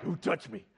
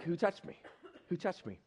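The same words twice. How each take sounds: First: A touch of bluntness, imitating Jesus; less nice voice. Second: Softer, gentler imitation of Jesus; nicer voice. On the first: Jesus asking in a packed crowd who touched him, less nicely. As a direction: ask it bluntly, a mock-puzzled Jesus. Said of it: "probably had a much nicer voice". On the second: Jesus gently asking the crowd who touched him, in a nicer voice. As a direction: ask it softly, as a kinder Jesus. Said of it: "had a much nicer voice".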